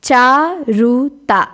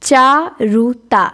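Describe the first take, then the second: Both takes have the same delivery.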